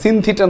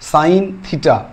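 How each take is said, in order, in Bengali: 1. প্রথম শব্দটিতে একটি ছোট 'i' স্বরধ্বনি আছে। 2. প্রথম শব্দটিতে একটি লম্বা 'ai' স্বরধ্বনি আছে। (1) "সিন থিটা নয় কিন্তু" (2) "উচ্চারণটা হচ্ছে সাইন থিটা"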